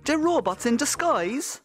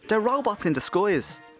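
First: It is spoken in a Cork Irish accent. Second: It is spoken in a Dublin Irish accent. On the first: "if you say that with a Cork accent" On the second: "the same thing happens in a Dublin accent"

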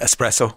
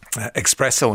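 First: The word begins with an 'es' sound. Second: The word begins with an 'ex' sound. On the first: The speaker calls it right. "instead of espresso" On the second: The speaker calls it wrong. "I say, you know, espresso instead of"

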